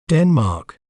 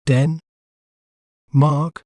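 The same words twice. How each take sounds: First: Denmark in one piece, falling at the end; whole-word pronunciation. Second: Den- and Mark split by a long pause; syllable by syllable. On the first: Teacher showing viewers how to say the name, Denmark as one whole word. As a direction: put Denmark back together as one careful word. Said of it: "We may pronounce it as". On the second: Teacher breaking down a word for viewers, Den- and Mark said separately. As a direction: break it into Den-, then Mark, each on its own. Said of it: "breaking down a word can make it clearer". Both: Shown as a demonstration.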